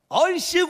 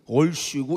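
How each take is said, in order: First: It is said brightly, with a smiling tone. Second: It is said with a frowning, gloomy tone.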